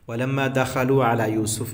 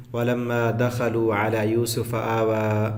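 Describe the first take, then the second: First: Said in the usual way. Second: Slow, lower, melodic tajweed chant; slow Quranic recitation. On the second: Shown as a demonstration. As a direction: recite it slowly, stretching the vowels. Quran recitation before translation.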